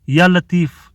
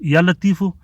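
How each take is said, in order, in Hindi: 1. आख़िरी लफ़्ज़ व्यंजन पर ख़त्म होता है। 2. आख़िरी लफ़्ज़ के अंत में जोड़ा गया o स्वर है।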